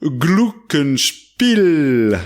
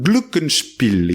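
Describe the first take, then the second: First: Glockenspiel very slow, Glock held long; long first syllable. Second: Glockenspiel slow with the first syllable held; drawn-out Glockenspiel. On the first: Radio host demonstrating the name, first syllable stretched long. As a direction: stretch Glock way out, then spiel. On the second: Host has listeners practise the word, first syllable drawn out. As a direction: say Glockenspiel again, Glock stretched. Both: Shown as a demonstration. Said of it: "on étire bien la première syllabe".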